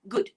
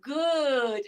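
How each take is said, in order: First: The vowel is kept short. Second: The vowel is drawn out long. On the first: The speaker calls it right. "So it should be good" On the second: The speaker calls it wrong. "I too always make the mistake of saying good"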